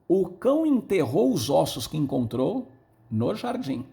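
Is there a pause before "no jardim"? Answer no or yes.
yes. There is a pause before no jardim.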